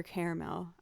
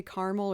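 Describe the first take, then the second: First: "caramel" opening on an "air" vowel, ending "mel"; caramel as CARE-mel. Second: "caramel" with an "ar" vowel and no middle syllable; two-syllable caramel. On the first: Weighing the other way to say it, CARE-mel "caramel". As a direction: say "caramel" with a "care" first syllable. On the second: Unsure how they say it, two-syllable CAR-mul "caramel". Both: Shown as a demonstration. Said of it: "if I say caramel or caramel".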